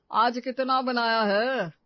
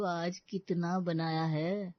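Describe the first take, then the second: First: कितना hit hard, loud and slow; loud slow stressed question. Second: कितना said slowly and leaned on; slow stressed question. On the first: Husband repeats the corrected question, loud and slow. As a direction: boom out कितना like a complaint. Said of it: "यही पूछना पड़ेगा". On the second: Sister-in-law corrects brother's question, slow and pointed. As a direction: drag out कितना to mock the amount. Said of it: "ऐसे पूछो". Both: Shown as a demonstration.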